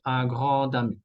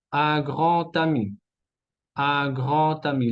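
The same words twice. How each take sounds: First: Un grand ami with a voiced d; wrong liaison in D. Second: Un grand ami with the d said as t; liaison in T. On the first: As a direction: link "grand ami" as gran-dami. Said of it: "no decimos un grand ami". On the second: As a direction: link "grand ami" as gran-tami. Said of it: "la D se transforma en T". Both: Shown as a demonstration.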